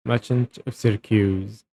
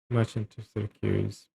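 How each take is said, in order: First: MERCHANT of Syracuse declaimed loudly; too loud. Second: Said in the usual way. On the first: Shown as a demonstration. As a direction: project the line like a stage duke addressing a prisoner. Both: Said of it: "that's too loud".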